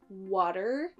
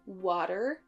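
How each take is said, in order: No difference in how they are said.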